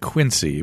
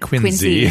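First: It is said the general, non-New England way. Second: It is said the local New England way. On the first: "if those of you who are not from New England, you'd call it Quincy" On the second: "if you're in New England, they call it Quincy"

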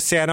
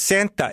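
First: The T sound in the middle is dropped. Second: The T sound in the middle is pronounced. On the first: "people go Santa Monica. They don't say the T" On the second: "It's Santa, isn't it?"

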